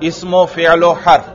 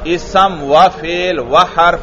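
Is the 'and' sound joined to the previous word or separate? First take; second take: joined; separate. First: Each 'and' joins the word before as -u. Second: Each 'and' is said as a separate word. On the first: The speaker calls it right. "اسی واو سے ماقبل والے حرف پر پیش پڑھ دینا" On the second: The speaker calls it wrong. "تو اس کو آپ نے علیحدہ نہیں پڑھنا، اسم و فعل و حرف یوں نہیں پڑھنا"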